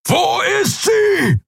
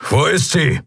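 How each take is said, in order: First: Much higher, slow furious roar. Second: Higher, pressing question; Keru's first worried demand; urgent demand. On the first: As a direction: bellow the question at them. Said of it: "brüllte er". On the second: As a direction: demand an answer. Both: Acted.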